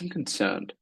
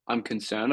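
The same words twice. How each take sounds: First: It sounds warm and genuinely concerned. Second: It sounds flat and without real concern. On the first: The speaker calls it right. "When you say it the right tonality" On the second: The speaker calls it wrong. "not I'm concerned"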